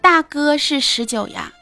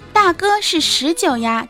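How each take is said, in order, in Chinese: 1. 说话带有明显的地方口音。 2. 用标准的普通话说的。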